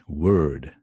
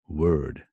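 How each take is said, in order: Both takes have the same delivery.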